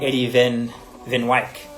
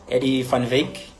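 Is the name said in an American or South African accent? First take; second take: American; South African. First: The name is said in an American accent. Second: The name is said in a South African accent.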